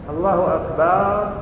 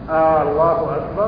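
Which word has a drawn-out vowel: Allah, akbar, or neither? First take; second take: akbar; Allah. First: The second vowel of akbar is drawn out. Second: The first vowel of Allah is drawn out. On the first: It turns akbar into a plural noun, drums. "هذا جمع" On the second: It turns the phrase into a question. "هذا استفهام"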